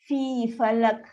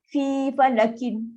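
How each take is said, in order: First: The last word ends on a stopped consonant. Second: The last word ends with a vowel ending. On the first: The speaker calls it right. "Tukar sukun. Dia akan bunyi fi, falak" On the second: The speaker calls it wrong. "tak boleh baca macam tu"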